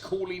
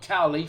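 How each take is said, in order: First: The first vowel sounds like 'oo'. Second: The first vowel sounds like 'ow'. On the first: The speaker calls it right. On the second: The speaker calls it wrong. "not Cowley, for the pronunciation police out there"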